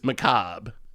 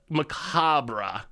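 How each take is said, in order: First: The word ends without a 'ra' sound. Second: The word ends with an audible 'ra' sound.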